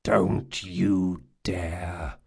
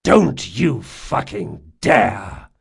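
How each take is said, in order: First: Low, very slow menacing growl. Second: Slow, loud, emphatic warning; furious warning. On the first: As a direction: growl it slowly as a warning. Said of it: "growled Jean". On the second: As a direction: hit each word hard, in anger. Warning repeated with more force. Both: A narrator's reading.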